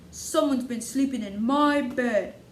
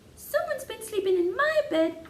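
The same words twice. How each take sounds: First: It is said in a great big voice. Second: It is said in a small voice. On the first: "in his great big voice" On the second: "in his small voice"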